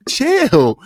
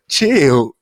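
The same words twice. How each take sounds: First: Chill jumping way up high; high squeaky chill. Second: Said in the usual way. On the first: Real, not acted. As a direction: shoot the word up high to calm the laughter.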